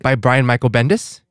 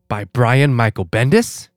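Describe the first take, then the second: First: It is said quickly and plainly. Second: It is hammed up slowly and theatrically.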